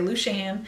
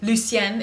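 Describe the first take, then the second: First: The name is said with a rural Southern pronunciation. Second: The name is said with a standard pronunciation. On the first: The speaker calls it wrong. "we're a little bit hillbilly... so we all say" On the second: The speaker calls it right. "if you pronounce it correctly"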